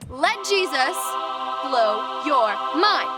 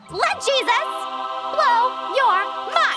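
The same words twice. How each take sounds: First: It is said in a normal voice. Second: It is said in a very high-pitched voice.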